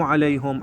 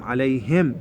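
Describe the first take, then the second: First: عليهم as "alayhum"; wrong example, عليهم with "u"; mistaken damma. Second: عليهم as "alayhim"; corrected model, عليهم with "i"; kasra on ha. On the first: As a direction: say "hum" at the end of عليهم. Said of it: "مو". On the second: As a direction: slowly end عليهم on "him". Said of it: "بالكسرة". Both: Shown as a demonstration.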